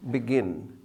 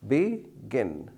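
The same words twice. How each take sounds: First: Said in the usual way. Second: "begin" broken into two separate syllables. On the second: Shown as a demonstration. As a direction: say "begin" as be, then gin, with a gap. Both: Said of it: "two syllables".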